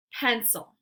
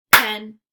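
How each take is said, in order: First: Said in the usual way. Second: Pencil as loud "pen... cil"; clapped-out syllables. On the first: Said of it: "only gonna say the word". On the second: Shown as a demonstration. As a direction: break Pencil into two separate beats. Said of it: "clap it out into syllables".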